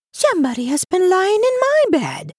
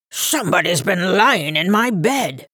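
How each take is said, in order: First: Very high, birdlike mama bear voice; chirping medium-sized bear. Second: Gruff, growling bear voice at usual pitch; great gruff big bear. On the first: Medium-sized bear finding her bed used, chirping high. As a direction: chirp it like a little bird. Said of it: "sounded like a little chirping bird". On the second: Big bear finding his bed used, gruff. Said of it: "great gruff voice of the big bear". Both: A narrator's reading.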